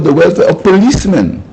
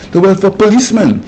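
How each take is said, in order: First: "welfare of policemen" underlined, pitched higher; emphatic underlining. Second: Said in the usual way. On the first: Real, not acted. Prime minister underlining whose welfare matters, "welfare of policemen" stressed higher. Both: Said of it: "I underline the word".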